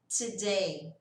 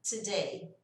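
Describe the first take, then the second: Both takes have the same delivery.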